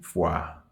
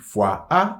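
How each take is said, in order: First: The article merges into the noun's final vowel. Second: The article is said as a separate sound. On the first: The speaker calls it right. "mais nous dit" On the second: The speaker calls it wrong. "nous pas dire"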